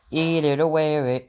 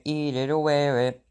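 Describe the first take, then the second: First: Loud, shrill-free toddler yell in a put-on kid voice; toddler scream. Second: Put-on the same words chanted slowly in the kid voice; slower toddler chant. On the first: Toddler screaming at his father, loud kid voice. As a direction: scream it like a furious little kid. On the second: Toddler chanting at his father, slow mock tantrum. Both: A narrator's reading. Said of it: "Fudge screamed".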